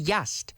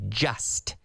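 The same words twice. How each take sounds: First: It begins with a Y sound, as in yellow. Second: It begins with a J sound, as in jello. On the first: The speaker calls it wrong. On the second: The speaker calls it right.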